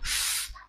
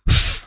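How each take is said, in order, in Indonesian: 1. Bunyi f dilepas dengan lembut, tanpa dorongan. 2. Bunyi f didorong keluar dengan hentakan yang kuat. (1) "Cukup f, f, seperti itu" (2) "Jangan sampai f, ya dihentak-hentakan"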